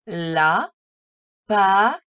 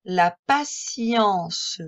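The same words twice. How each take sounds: First: « patience » plus fort, syllabes séparées; découpe chaque syllabe; syllabe par syllabe. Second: Said in the usual way. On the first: Shown as a demonstration. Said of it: "lire le mot syllabe par syllabe". (« La patience » syllabé) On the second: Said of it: "d'une traite".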